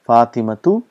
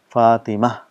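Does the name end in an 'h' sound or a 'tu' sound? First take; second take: tu sound; h sound. First: The name ends with a full 'tu' syllable. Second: The name ends softly with an 'h' sound.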